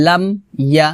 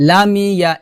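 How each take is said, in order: First: "লাম ইয়া" with m shut and a break before ya; closed m, separated. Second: "লামিয়া" run together with long "mi"; wrong added vowel. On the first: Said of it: "হবে". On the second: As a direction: slide it into lameeya. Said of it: "এটা হবে না". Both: Shown as a demonstration.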